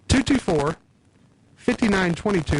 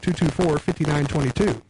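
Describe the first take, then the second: First: The number is said slowly. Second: The number is said fast.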